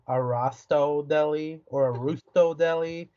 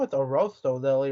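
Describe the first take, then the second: First: "Arrosto" said as a-ROSS-to, then as ROO-sto; "Arrosto" mispronounced first with an "ah", then as "Rusto"; wrong pronunciation. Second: "Arrosto" said as a-ROH-sto, long "oh"; "Arrosto" with stress on ROH, Italian style; correct pronunciation. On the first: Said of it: "I've been saying it wrong". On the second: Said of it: "You know, it's Arrosto Deli, right?". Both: Retold or imitated.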